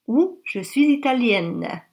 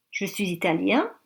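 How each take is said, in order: First: Italienne ending with an open vowel and a clear n; feminine italienne. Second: Italien ending on a nasal vowel, no n; masculine italien. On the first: Teacher to learners, feminine form with doubled n sounded. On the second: Teacher to learners, masculine form with nasal ending. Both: Shown as a demonstration. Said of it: "Ou on double le N".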